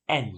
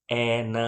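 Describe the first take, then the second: First: એન as one syllable "an"; joined reading. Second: એ ન stretched as "ae-naa"; wrong split reading. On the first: Teacher modelling for pupils, એન ending on a bare n. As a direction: close એન on n with no vowel after. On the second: Teacher showing what not to read, એ ન in two syllables. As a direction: hold a vowel on each part of એ ન. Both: Shown as a demonstration. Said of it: "એમ નહીં વાંચીએ".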